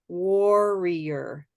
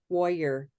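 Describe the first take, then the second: First: It is said slowly with every syllable full. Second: It is said quickly with syllables squeezed together. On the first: "But it's really war, war" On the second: "if you were saying it quickly"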